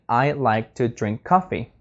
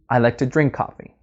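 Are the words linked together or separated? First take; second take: separated; linked. First: Each word is said separately, like a robot. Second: The words run smoothly together without breaks. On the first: The speaker calls it wrong. "instead of saying" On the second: The speaker calls it right. "You are linking the words"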